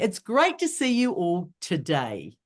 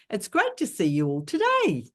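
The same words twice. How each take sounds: First: The voice falls at the end. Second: The voice rises at the end. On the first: The speaker calls it right. "you end with your main point by dropping your voice down" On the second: The speaker calls it wrong. "If you do it the other way around"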